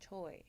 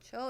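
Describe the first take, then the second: First: The name ends in an 'oy' glide. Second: The name ends in a plain 'oh' vowel. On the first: This is how the family says the name. The speaker calls it right. "He's like, no, no" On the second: This is how the spelling looks when read. The speaker calls it wrong. "when I read it, I'm like, oh"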